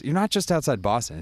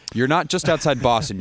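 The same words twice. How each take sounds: First: Not punched with higher pitch; exasperated correction; stress on not. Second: Not hit high and loud; mock indignant retort; stress on not. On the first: Real, not acted. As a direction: insist on the word not. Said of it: "Why can't you just say". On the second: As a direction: lean hard on the word not. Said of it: "You mean you're ten minutes".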